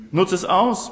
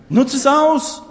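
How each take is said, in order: First: Said in the usual way. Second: Much higher and louder, a rousing call; urgent shout. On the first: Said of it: "repeated calmer". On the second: Real, not acted. Preacher urging listeners to use every chance, loud rousing shout. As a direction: fire them up, shout it out. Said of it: "preacher urging the congregation".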